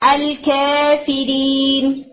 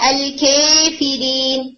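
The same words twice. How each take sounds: First: The long vowel falls between 'a' and 'e'. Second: The long vowel is tilted strongly toward 'e'. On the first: "تقلیل ہے" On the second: "امالہ ہے"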